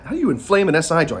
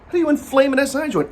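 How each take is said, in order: First: Said in the usual way. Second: High, fast disbelieving question; incredulous. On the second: Real, not acted. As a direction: ask it in disbelief. Incredulous repeat, much higher.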